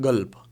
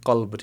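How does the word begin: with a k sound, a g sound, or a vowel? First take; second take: g sound; k sound. First: The word begins with a g consonant. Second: The word begins with a k-like consonant. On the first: "कुछ लोग गल्ब भी बोलते हैं" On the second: "लफ्ज़ है कल्ब"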